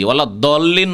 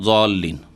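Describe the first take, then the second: First: The word begins with a clear d sound. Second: The word begins with a clear z sound. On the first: "ওলা দল্লিন নয়" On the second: "আর জল্লিনও নয়"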